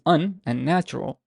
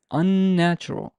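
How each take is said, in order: First: Said in the usual way. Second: "unnatural" with a heavily prolonged n; higher "unnatural", holding the n at the join; emphasized double N. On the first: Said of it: "are not stressed". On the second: Shown as a demonstration. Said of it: "I'm emphasizing the, the stress here".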